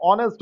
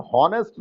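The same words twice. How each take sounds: First: ऑनेस्ट with no h, starting on the o sound; silent h. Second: हॉनेस्ट with a spoken h, the wrong way; teacher shows हॉनेस्ट said with h at the start; wrong h sound. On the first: Teacher gives the right way, with a silent h. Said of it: "इसका उच्चारण हॉनेस्ट नहीं होता". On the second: Teacher shows the wrong way, with the h sounded. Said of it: "ऑनेस्ट होता है". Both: Shown as a demonstration.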